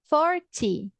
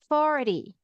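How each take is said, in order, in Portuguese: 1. A consoante do meio é um som de t claro. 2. A consoante do meio é um som de r de tepe.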